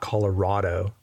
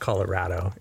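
First: The 'ra' vowel sounds like the one in odd. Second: The 'ra' vowel sounds like the one in rad. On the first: The speaker calls it wrong. "It is not Colorado. not an odd state" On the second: The speaker calls it right. "it is pronounced Colorado. It's a rad state"

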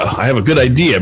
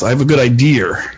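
First: Idea ends in a plain vowel, no R. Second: Idea ends with an added R sound. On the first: "So the word idea" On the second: "we add an R to the end of it"

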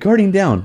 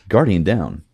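First: It is said in a cheerful, chipper tone. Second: It is said in a serious, unchipper tone. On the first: The speaker seems happy about it. The speaker calls it wrong. "Nolanbot's a little chipper when he says Guardian down" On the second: The situation feels grave. The speaker calls it right. "there was something like really nostalgic hearing him say"

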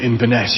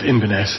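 First: The stress is on the last part. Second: The stress is on the first part. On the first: The speaker calls it right. "the stress often lies on the second less familiar element" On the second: The speaker calls it wrong. "places called Inverness in America and Canada"

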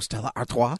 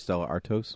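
First: The name is pronounced in an odd way. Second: The name is pronounced in a normal way. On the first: "she just said it weird" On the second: "I'm going to not say it weird anymore"

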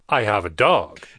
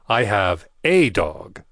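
First: The word 'dog' is stressed. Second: The word 'a' is stressed.

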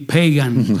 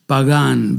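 First: The name is said the English way. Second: The name is said the Spanish way.

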